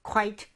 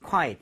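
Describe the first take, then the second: First: "quite" as a higher, single "kwite"; one-syllable quite. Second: "quiet" as falling "kwai-et"; two-syllable quiet. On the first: ("quite"를 높게 '콰이트' 한 음절로 발음) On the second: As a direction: model "quiet" with a second vowel. ("quiet"를 '콰이-엇' 두 음절로 발음) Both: Shown as a demonstration. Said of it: "이렇게 해보세요".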